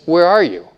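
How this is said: It is said gently and lovingly.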